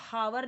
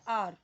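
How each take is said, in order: First: The word begins with an h sound. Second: The word begins with a vowel sound. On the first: The speaker calls it wrong. "हम इसको हावर नहीं पढ़ते" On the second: The speaker calls it right. "इसका correct pronunciation होता है आर"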